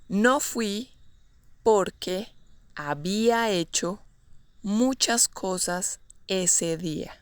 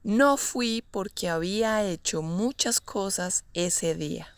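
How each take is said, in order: First: Word groups set apart by pauses. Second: Said in the usual way. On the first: Shown as a demonstration. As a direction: give it chunk by chunk, unhurried. Teacher models example slowly, then naturally.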